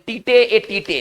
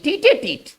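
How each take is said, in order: First: Each part is read out separately, as spelled. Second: The parts are joined smoothly into one word. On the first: The speaker calls it wrong. "लेकिन इसका उच्चारण ऐसे नहीं होता है" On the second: The speaker calls it right. "एक साथ सटाकर पढ़ेंगे इसको"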